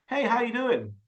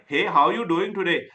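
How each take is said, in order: First: Higher, easy American-style "Hey, how you doing?"; casual American greeting. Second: "Hey, how you doing today?" with each word sounded out, less lilt; the version to avoid. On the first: Coach models movie greetings for a learner, casual American accent. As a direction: copy a movie American saying hello. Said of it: "how they pronounce them. Just copy them". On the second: Coach shows learner what not to copy, "how you doing today" spelled out evenly. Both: Shown as a demonstration.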